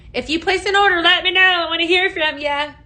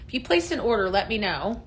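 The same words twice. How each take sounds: First: Calling out to viewers, raised and bright; louder, higher call to the live chat. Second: Said in the usual way. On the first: Real, not acted. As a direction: repeat it louder so everyone hears. Repeats call for orders louder.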